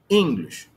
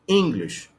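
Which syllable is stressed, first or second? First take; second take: first; first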